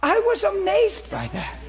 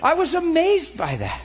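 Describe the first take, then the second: First: Much higher and slower, wonderstruck; more amazed. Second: Higher, amazed exclamation. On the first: Preacher repeats his amazement to congregation, slow and high. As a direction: let the wonder stretch out. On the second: Preacher marvels to congregation at the turkey. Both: Real, not acted.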